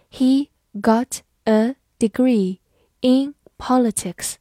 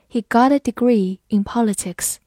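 First: Slow, careful word-by-word reading. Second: Said in the usual way. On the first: Shown as a demonstration. Teacher reading a model sentence slowly for students. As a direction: read it slowly so students can follow. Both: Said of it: "好，慢慢来读。".

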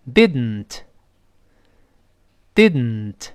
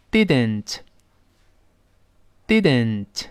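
First: Didn't with the t released through the nose; nasal plosion. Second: Didn't read slowly, each sound held apart. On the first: Teacher demonstrating nasal plosion in didn't. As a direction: say didn't, tongue held up, air out of the nose. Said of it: "试试鼻腔爆破". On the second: Teacher reading didn't slowly for students. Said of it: "先慢慢读". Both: Shown as a demonstration.

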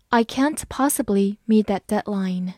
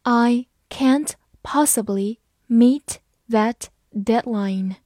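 First: Said in the usual way. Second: Slow, deliberate read. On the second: Shown as a demonstration. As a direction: say it slowly for learners. (慢速朗读) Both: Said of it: "我们慢读一遍".

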